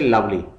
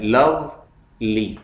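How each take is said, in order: First: Said in the usual way. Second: lovely slowly in two beats, लव then ली; split into syllables. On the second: Shown as a demonstration. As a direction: break lovely with a clear pause before ली. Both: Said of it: "इसके टू syllables हैं".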